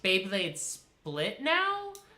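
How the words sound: It rises at the end, like a question.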